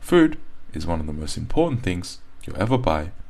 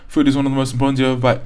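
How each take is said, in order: First: It is broken into many small paused chunks. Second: It is rushed together with no pauses. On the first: "you're going a bit overboard" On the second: "It's not so fast that it becomes sort of unnatural"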